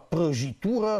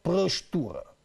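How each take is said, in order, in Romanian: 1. Toate vocalele se pronunță plin. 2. Câteva vocale sunt înghițite într-un accent regional.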